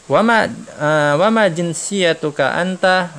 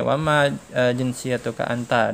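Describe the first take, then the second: First: "wa ma jinsiyatuka anta?" slow, higher and louder; slow model question. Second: Said in the usual way. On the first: Shown as a demonstration. Teacher voicing the question slowly for the class. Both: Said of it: "si Syarif nanya ke Muhammad nih".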